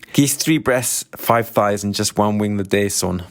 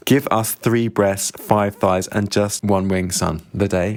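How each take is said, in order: First: Put-on thick, quick Glaswegian accent; clumsy attempt at a Glaswegian shop customer. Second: Put-on slow, spelled-out Scottish accent; slow the Scottish order down so it's understood; careful Scottish accent, word by word; clearer Scottish accent. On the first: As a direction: rattle off the order in broad Glaswegian. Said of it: "that is not a great Scottish accent". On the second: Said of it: "I'll need to translate".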